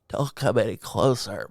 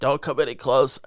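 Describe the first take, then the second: First: It is said in a hoarse, sick voice. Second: It is said in a normal voice.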